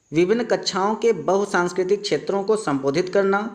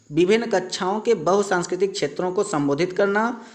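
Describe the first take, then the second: No difference in how they are said.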